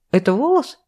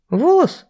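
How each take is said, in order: First: High rising, stress on волос; incredulous. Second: Very high, rising astonishment; astonished. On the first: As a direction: ask again, leaning on волос. Vera re-asks about hair. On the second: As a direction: squeal the word in shock. Vera amazed by hair. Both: Acted.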